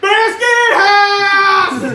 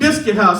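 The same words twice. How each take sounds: First: It is said with a hillbilly inflection. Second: It is said in a plain voice.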